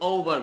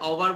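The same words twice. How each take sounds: First: The first vowel is rounded like o. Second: The first vowel is not rounded like o. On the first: The speaker calls it right. "ওভার বলছি, একটু ও" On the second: The speaker calls it wrong. "আমি এটা ওভার বলি না"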